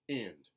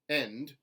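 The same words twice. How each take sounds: First: The vowel sounds like ih. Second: The vowel sounds like eh. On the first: "contemporary Southern I" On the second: "Standard American eh"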